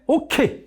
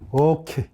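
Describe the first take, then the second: First: It is said in a lively, exaggerated way. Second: It is said in a calm, restrained way.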